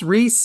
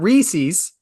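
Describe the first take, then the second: First: The name is said with one syllable. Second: The name is said with two syllables. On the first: "It's Reese" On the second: "not Reese's"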